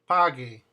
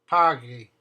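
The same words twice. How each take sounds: No difference in how they are said.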